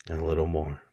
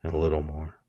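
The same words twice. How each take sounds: The two takes are said the same way.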